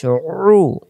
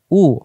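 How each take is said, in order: First: Slow "রু" as throat-pressed oo, no r; squeezed ain u. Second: Clean open "উ"; "উ" without throat pressure; hamza u. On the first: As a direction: tighten the throat into "রু". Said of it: "আইনের বেলা". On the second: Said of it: "হামজা পেশ". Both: Shown as a demonstration.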